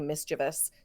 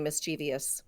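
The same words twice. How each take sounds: First: The word ends in 'vus', three syllables. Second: The word ends in 'vee-us', four syllables. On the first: "as opposed to the "-vus."" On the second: "the frequency of the "-vs" suffix"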